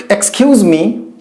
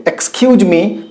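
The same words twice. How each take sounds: First: "Excuse me" with a z sound; the "Excuse me" people commonly say; wrong pronunciation. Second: "Excuse me" with an s sound at the end of "excuse"; correct pronunciation. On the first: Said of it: "We say". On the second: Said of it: "It's right to say". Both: Shown as a demonstration.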